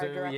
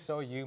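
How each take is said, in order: First: The name is said as one syllable, sue. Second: The name is said as two syllables, so-you. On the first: The speaker calls it wrong. "Some people have a lot of troubles pronouncing it" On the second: The speaker calls it right. "it's definitely So You"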